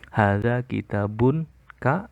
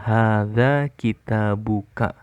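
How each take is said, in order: First: An n sound is heard before ka. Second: No n sound is heard before ka. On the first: The speaker calls it wrong. "itu salah" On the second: The speaker calls it right. "Yang benar adalah"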